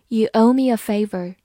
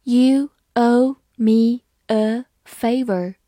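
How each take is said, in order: First: Said in the usual way. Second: Very slow and a bit louder, every word clear; slow read. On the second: Shown as a demonstration. Teacher reading slowly to her students, slow and clear. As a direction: stretch it out for the class. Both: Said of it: "好，慢慢来读".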